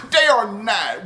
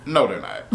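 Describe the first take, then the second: First: "They are not" said slower and higher, each word hit, through a laugh; slow emphatic denial. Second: Said in the usual way. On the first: Real, not acted. Reviewer flatly denies the show's best-friends claim, slow and emphatic.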